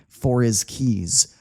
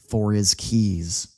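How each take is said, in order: First: The h sound in 'his' is dropped. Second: The same.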